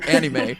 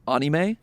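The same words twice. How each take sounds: First: The word gets an ordinary casual pronunciation. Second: The word gets a devoted fan's pronunciation. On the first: The speaker is only a casual fan. "I am but a casual in this world" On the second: The speaker is a serious fan. "serious about his fandom of anime when he pronounces it"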